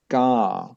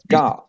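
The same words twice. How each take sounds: First: The syllable is drawn out long. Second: The syllable is short and stressed. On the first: "if we use the longer song, it would be like" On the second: "it's like using a stress like it"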